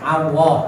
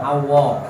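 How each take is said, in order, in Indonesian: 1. Bunyi L itu tipis dan ringan. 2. Bunyi L itu tebal dan berat.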